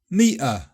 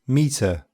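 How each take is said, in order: First: The middle t is a glottal stop. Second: The middle t is a clear tongue t. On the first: The speaker sounds working class. "in working class accents, this is more likely to be meter" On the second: The speaker sounds posh. "in posher accents, meter, with some sort of alveolar t"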